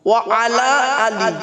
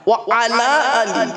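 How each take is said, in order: Both takes have the same delivery.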